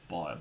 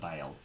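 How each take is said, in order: First: The vowel sounds like the oy in boil. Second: The vowel sounds like the ay in bale.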